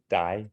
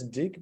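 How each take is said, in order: First: The word ends with an open vowel sound. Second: The word ends with a hard G sound. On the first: The speaker calls it right. "but we say die" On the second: The speaker calls it wrong. "It says dig"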